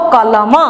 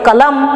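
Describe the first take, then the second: First: A short vowel is sounded after the final consonant. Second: The word ends on the bare final consonant. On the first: The speaker calls it wrong. "आप इसको कलम ऐसे मत पढ़िए" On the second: The speaker calls it right. "अंतिम अक्षर को हलंत के तरह उच्चारण करेंगे"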